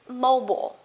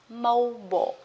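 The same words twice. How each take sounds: First: It is said with an American accent. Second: The same.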